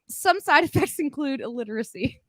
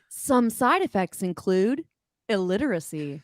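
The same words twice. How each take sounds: First: It is read in the reader's ordinary voice. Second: It is read in a put-on character voice.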